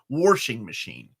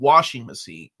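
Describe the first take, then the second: First: The first word is said with an added R sound. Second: The first word is said without an R sound. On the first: "we seem to add an R to a lot of words" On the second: "instead of saying washing machine"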